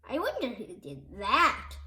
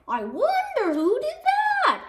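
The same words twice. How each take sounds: First: Lower, softer mock-innocent question; quiet wonder. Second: High, curious fan voice; innocent wonder. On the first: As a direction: murmur it wondering. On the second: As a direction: ask it with mock innocence. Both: A narrator's reading. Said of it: "asked another fan".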